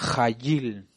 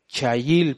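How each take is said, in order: First: The word begins with a throaty 'j' sound. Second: The word begins with a 'ch' sound. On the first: The speaker calls it right. "esta CH a nuestro idioma español se pronuncia como J. Sería Jayil" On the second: The speaker calls it wrong. "Aquí dice Chayil"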